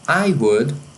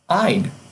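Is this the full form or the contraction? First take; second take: full; contraction. First: Both words are said in full. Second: The words are contracted into one syllable.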